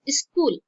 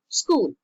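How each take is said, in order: First: It is adapted to an Indian language's sound pattern. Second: It keeps its original English sound pattern. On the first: The borrowed word has been adapted to the native sound system. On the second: The borrowed word keeps its original form.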